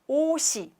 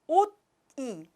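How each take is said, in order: First: The final s sound runs into the next syllable. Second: The final consonant is held apart from the vowel. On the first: The speaker calls it right. "when we pronounce 오시" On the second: The speaker calls it wrong. "not 옷이. It's really difficult to pronounce"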